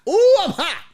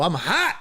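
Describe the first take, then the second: First: Loud, very high-pitched exclamation; fuming outburst. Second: Said in the usual way. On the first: Retold or imitated. Passenger fuming on a bench, loud outburst. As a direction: let the heat burst out in a high yelp.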